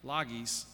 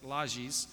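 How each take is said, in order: First: The name is read the way it is spelled. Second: The name is said unlike its spelling. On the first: The speaker calls it wrong. "It looks like Lages" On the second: The speaker calls it right. "but it's Lages"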